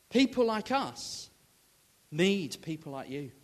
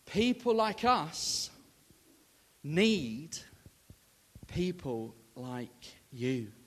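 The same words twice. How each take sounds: First: Said in the usual way. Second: Slow, spaced words with pauses; slow emphatic "People like us need people like you"; slow, weighty repeat. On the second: Retold or imitated. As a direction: land each word deliberately. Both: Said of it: "she said".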